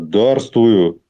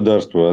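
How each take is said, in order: First: The word is said with strong, weighty emphasis. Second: The word is said plainly, without extra weight.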